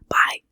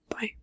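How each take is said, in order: First: It is said loudly. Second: It is said very quietly.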